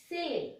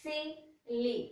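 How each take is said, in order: First: Said in the usual way. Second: SILLY in two separate beats, sil, then ly; split into syllables. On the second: Shown as a demonstration. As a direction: break silly into sil - ly with a short gap. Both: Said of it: "Two times".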